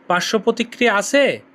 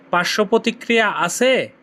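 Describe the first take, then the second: No difference in how they are said.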